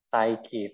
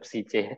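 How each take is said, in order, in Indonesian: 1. Kata ini berakhiran bunyi 'kee'. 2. Kata ini berakhiran bunyi 'see'. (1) "berarti tadi kita udah bener guys tadi cara pengucapannya" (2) "Ngawur banget"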